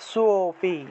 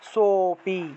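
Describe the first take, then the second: The two takes are said the same way.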